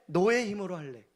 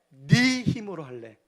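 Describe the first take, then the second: First: The word for 'your' is said in standard form. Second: The word for 'your' is said in regional dialect.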